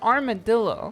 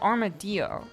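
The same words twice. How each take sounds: First: The double L sounds like a plain L. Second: The double L sounds like a Y, Spanish-style. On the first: This is the commonly heard English way. "K K says it's armadillo" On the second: This follows the word's Spanish origin. "I pronounce it as armadillo because it's a Spanish word"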